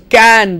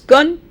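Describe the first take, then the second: First: The word has a full, clear vowel. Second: The word has a short, reduced vowel. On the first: "You have the strong form" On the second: "you have the weak form"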